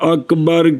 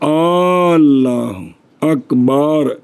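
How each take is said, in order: First: The last vowel of Akbar is short. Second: The last vowel of Akbar is drawn out long. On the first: The speaker calls it right. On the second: The speaker calls it wrong.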